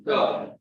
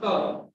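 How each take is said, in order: First: 'term' said with the English T; correct T sound. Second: 'term' said with the Hindi T; wrong T sound. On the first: Teacher correcting the sound, English T. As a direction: give 'term' an English T, not Hindi. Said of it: "but it should be term". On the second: Teacher showing what to avoid, Hindi T. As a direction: give 'term' a Hindi-style T. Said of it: "This is not term". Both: Shown as a demonstration.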